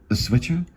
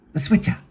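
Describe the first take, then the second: First: "switcher" rising as a question; puzzled echo. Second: SWITCHER pitched high as a demand; insistent demand. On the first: Bartender unsure what Gerald wants, questioning rise on "switcher". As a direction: repeat "switcher" back with a questioning lift. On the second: Gerald demanding the remote from the bartender, high insistent "switcher". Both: Acted.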